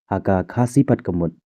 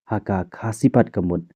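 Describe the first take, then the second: The two takes are said the same way.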